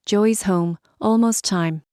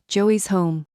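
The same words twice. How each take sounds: First: Strained, rasping and out of breath; raspy voice. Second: Strained rasp, rough throat; raspy voice. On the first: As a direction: rasp it out with a sore throat. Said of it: "I rasped, out of breath". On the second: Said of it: "dropped my voice back to the rasp". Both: Acted.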